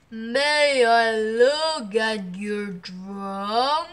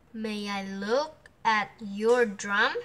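First: Very slow, drawn-out elephant voice. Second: Said in the usual way. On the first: A narrator's reading. Elephant asks to see the drum, slow big voice. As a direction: ask it big and lumbering, stretching every word. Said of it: "asked the elephant". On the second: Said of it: "asked Pattern".

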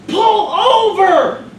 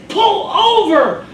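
First: High, loud, very slow command shout; barked order. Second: High, loud, drawn-out command shout; barked order. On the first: Cop shouting at the ambulance driver again, loud slow yell. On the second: Cop shouting at the ambulance driver to stop, loud slow yell. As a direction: yell it like a cop through the window. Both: Acted.

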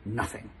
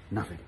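First: Much softer, lower shy reply; mock shy boy. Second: Lower, much softer second try; mock shy boy, retried. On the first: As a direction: mumble it shyly. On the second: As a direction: say it more shyly. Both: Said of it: "he said shyly".

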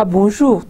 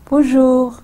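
First: Bonjour, with a falling close; falling end tune. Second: Bonjour। lifted high at the end; bright rise on Bonjour।; rising greeting tune. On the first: Teacher shows tune of a lone greeting. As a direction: let Bonjour, settle at the end. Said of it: "मेरी intonation पहले". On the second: Teacher shows tune of Bonjour alone. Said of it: "bonjour पे के बाद वो intonation थी". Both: Shown as a demonstration.

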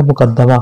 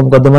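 First: मुकद्दमा read as muqaddama, short a after the doubled d; muqad-da-ma, the taught vowelling of मुकद्दमा; correct reading. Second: मुकद्दमा misread as muqaddima, short i after the doubled d; muqad-di-ma, the mistaken vowelling of मुकद्दमा; wrong reading. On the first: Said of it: "इसको पढ़ा जाएगा मुकद्दमा". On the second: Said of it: "इसको मुकद्दमा नहीं पढ़ना". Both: Shown as a demonstration.

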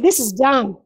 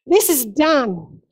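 First: Said in the usual way. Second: "This is done" drawn out slowly, each word weighted; slow, weighty repeat. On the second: Shown as a demonstration. Preacher repeating Jesus' words to the church, slow and weighty. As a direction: let "This is done" land slowly and firmly.

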